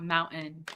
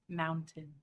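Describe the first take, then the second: First: It has the Utah dropped T sound. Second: It has a clearly pronounced T sound.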